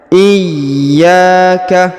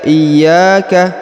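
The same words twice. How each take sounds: First: The y sound is held and pressed. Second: The y sound is short and light. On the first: The speaker calls it right. "harus ada penekanan ya" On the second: The speaker calls it wrong. "tidak boleh dibaca iyyaka"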